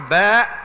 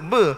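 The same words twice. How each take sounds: First: The letter name is said Arabic style. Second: The letter name is said Terengganu style. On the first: The speaker calls it right. "Yang tepatnya ba" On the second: The speaker calls it wrong. "Orang Terengganu sebut ba, tak tepat juga"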